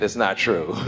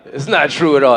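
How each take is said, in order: First: Soft, chuckling aside under the breath; a quiet amused mutter through a laugh; laughing quietly. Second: Said in the usual way. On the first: Real, not acted. Quiet laughing self-correction.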